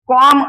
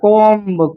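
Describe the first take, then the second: First: The word ends without a b sound. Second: The word ends with a b sound. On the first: The speaker calls it right. "बीचा उच्चार तुम्हाला करायचा नाही" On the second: The speaker calls it wrong. "कोंब हा pronunciation चुकीचा आहे"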